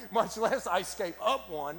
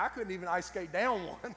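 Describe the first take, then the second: First: "up" stretched out slowly for contrast; slow down and lean on "up"; stress on up. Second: "down" punched against the idea of going up; stress on down. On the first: Preacher topping his own example, stress on "up". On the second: Preacher contrasting down with up, stress on "down". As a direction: lean on the word "down". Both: Real, not acted.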